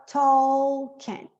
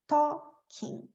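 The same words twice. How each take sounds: First: "talking" with the L said clearly; wrong, L sounded. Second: "talking" said as TOK-ing, slow; silent L. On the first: ("talking" com o L pronunciado) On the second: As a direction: drop the L in "talking". ("talking" sem o L, devagar) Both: Shown as a demonstration. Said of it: "esse L não é pronunciado".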